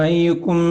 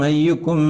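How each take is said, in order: Both takes have the same delivery.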